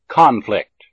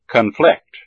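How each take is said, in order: First: The stress is on the first syllable. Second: The stress is on the second syllable. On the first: It is used as a noun. "the first syllable of the noun has primary stress" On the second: It is used as a verb. "the second syllable of the verb has primary stress"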